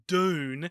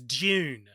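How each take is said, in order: First: The word begins with a plain hard D sound. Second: The first sound lies between D and J. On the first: The speaker calls it wrong. "it's not Dune" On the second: The speaker calls it right. "It's somewhere in between"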